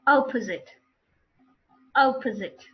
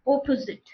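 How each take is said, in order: First: Opposite with an open "ah" start; opposite modelled with opened first vowel; correct pronunciation. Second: Opposite with a round "aw" at the start; opposite with mother-tongue rounded O; wrong pronunciation. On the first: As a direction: say opposite as "ah-puh-zit", falling. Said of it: "What are the correct pronunciations then?". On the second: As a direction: say opposite as "aw-po-zit". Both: Shown as a demonstration.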